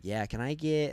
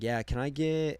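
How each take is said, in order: First: Cashier copies his American way; mimicking his accent. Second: Said in the usual way. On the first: Cashier mimicking the American customer. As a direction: echo him back as a mock. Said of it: "Are you mimicking me right now?". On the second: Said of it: "I was just, like, ordering a hamburger".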